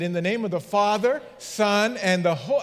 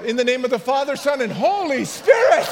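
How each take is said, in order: First: Said in the usual way. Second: Higher, louder, hurried shout of the blessing. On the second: Retold or imitated. Pastor calling the blessing after a woman swept downriver: loud shout. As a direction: holler it as she drifts away. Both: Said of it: "This is how it went".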